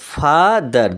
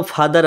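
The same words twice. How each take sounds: First: ফাদার in two slow beats, ফা then দার; split into syllables. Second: Said in the usual way. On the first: Shown as a demonstration. Teacher showing pupils the syllables, ফাদার broken slowly in two. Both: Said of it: "দুবার বলছি কি না".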